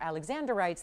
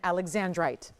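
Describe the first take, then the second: First: An extra vowel sounds before the final syllable. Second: No extra vowel sounds before the final syllable. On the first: The speaker calls it wrong. "they're probably going to wonder who you're talking about and who is Alexander" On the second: The speaker calls it right. "Alexandrite is the proper pronunciation"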